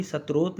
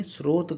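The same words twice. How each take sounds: First: शतरोत as "sat-rot", with a t; mispronounced word. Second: स्रोत as "srot", s straight into r; correct pronunciation. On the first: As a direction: put a t between s and r in शतरोत. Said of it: "शतरोत नहीं". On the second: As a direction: say स्रोत as one syllable without a middle t. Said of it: "कहा गया है". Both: Shown as a demonstration.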